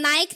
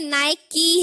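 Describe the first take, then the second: First: The word ends on a 'k' sound. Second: The word ends with an 'ee' vowel. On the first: The speaker calls it wrong. "लेकिन ये नाइक नहीं है" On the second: The speaker calls it right. "ये नाइकी है"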